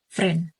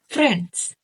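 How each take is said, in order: First: One consonant of the final cluster is dropped. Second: The whole final consonant cluster is pronounced. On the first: "the consonant of the sound is omitted to simplify pronunciation" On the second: "friends becomes friend"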